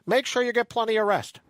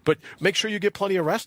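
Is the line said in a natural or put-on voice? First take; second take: put-on; natural. First: It is said in an exaggerated put-on voice. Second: It is said in a plain natural voice.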